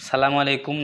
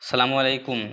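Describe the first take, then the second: First: The greeting begins directly with a 'sa' sound. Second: The same.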